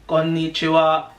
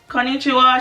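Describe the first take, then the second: First: The pitch stays level across the whole word. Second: The pitch moves up and down across the word. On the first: The speaker calls it right. "Japanese tone is flat. You need to go" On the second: The speaker calls it wrong. "no, that's not how you say it"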